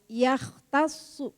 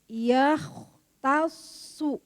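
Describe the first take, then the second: First: The nasal sound is cut short, not held. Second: The nasal sound is held and hidden. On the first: The speaker calls it wrong. "Saya kemarin salah ikhfa" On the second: The speaker calls it right. "Bukan yahtasu Ibu"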